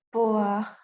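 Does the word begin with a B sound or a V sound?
B sound. The word begins with a B sound.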